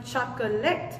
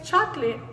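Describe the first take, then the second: First: Chocolate in three syllables, choc-uh-let; schwa kept. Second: Chocolate in two syllables, "chok-lit"; dropped schwa. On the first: Teacher showing the form not used, chocolate as choc-uh-let. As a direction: say chocolate with every syllable sounded out. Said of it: "y no chocolate". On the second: Teacher explaining the usual English form, chocolate as chok-lit. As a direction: say chocolate with the middle o left out. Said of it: "por qué es chocolate y no". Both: Shown as a demonstration.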